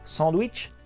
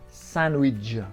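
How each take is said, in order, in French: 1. Il se prononce avec des sons français. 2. Il se prononce avec des sons anglais, sans d. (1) "on le prononce tous à la française" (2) "On n'entend pas le D, et ça fait widge à la fin"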